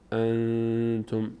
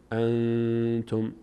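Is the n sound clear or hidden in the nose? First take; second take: nasal; nasal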